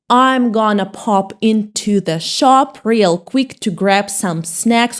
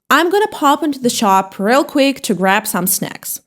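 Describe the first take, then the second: First: The sentence is read slowly. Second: The sentence is read at a normal pace.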